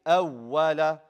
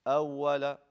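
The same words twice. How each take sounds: First: "أول" punched louder on a doubled w; nabr emphasis. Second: "أول" with an unstressed, smooth w; no nabr. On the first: Teacher corrects students, emphatic nabr on the w. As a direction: push hard on the double w in "أول". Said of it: "You do nabr". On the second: Teacher shows what not to say, no nabr. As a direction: say "أول" evenly, no push on the w. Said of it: "No, you say". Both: Shown as a demonstration.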